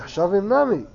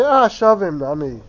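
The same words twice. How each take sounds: First: Shavim Nami without the push, rising then falling; understated version. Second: Shavim Nami led in by an emphatic "Ah"; exclaimed version. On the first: Teacher showing another way to say it, understated Shavim Nami. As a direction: say Shavim Nami more simply, with a falling end. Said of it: "Or you could say". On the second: Teacher showing one way to say it, exclaimed "Ah, Shavim Nami". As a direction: push the "Ah", then let Shavim Nami fall. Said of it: "You could say". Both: Shown as a demonstration.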